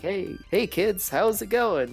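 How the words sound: It is said in a showy, entertaining way.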